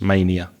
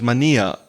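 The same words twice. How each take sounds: First: It is pronounced the English way. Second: It is pronounced the Spanish way. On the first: "We would say mania in English" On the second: "that you said with Spanish pronunciation"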